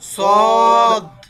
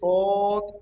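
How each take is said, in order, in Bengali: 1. শেষের d ধ্বনিটি স্পষ্টভাবে উচ্চারিত হয়েছে। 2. শেষের d ধ্বনিটি স্পষ্টভাবে উচ্চারিত হয়নি। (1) "সদ লাস্টে দয়ের উচ্চারণ হবে।" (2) "এরকম না"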